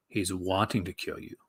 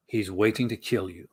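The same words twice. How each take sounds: First: Lower, softer trailer growl; lightly voiced trailer announcer; movie trailer voice. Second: Low, lurid trailer read; a hint of trailer narrator growl; movie trailer voice. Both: Shown as a demonstration. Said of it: "movie trailer guy voice".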